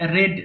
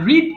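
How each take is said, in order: First: The vowel is short, like in 'red'. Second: The vowel is long, like in 'reed'. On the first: The speaker calls it right. "রেড উচ্চারণ হবে রেড।" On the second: The speaker calls it wrong. "না"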